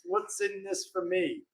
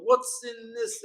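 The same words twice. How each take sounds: First: Softer and slower, almost under the breath; quiet selfish question. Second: Higher and pointed, a little softer; raised indignant question; indignant demand. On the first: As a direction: murmur it like a sly aside. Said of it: "And he quietly does this". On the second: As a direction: push the question at him. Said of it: "And he's like". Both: Retold or imitated.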